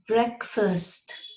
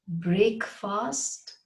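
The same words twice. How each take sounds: First: It is said as one joined word. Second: It is split into two separate words. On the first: The speaker calls it right. "Like break first" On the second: The speaker calls it wrong. "You cannot break the words up like that and pronounce them separately"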